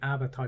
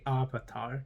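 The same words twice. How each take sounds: First: The name is said the familiar way. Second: The name is said the altered way. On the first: The speaker calls it right. "instead of saying Avatar" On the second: The speaker calls it wrong. "they say Avatar"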